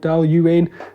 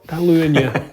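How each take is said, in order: First: The name ends without an extra 'yuh' sound. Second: The name ends with an extra 'yuh' sound. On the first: "some of you might have heard of Dal Uain" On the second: "Uanya is the correct, correct pronunciation"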